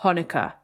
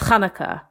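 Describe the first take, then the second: First: It starts with a plain, soft h sound. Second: It starts with a throaty, rasping ch sound. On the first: This is the way Hollywood says it. The speaker calls it wrong. "not Hanukkah" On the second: This is the traditional way to say it. The speaker calls it right. "the ch sound that comes so naturally"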